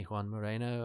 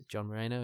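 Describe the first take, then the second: First: "Juan" said the Spanish way, hwan with a breathy h; "Juan Moreno" with Spanish vowels, mo-REH-no; Spanish name. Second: "John" said the English way, with a hard j; "John Moreno" in plain English, jon mo-RAIR-no; English name. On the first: Host setting Spanish name against English, Spanish pronunciation. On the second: Host correcting to the actor's English name, English pronunciation. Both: Shown as a demonstration. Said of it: "John Moreno and Juan Moreno".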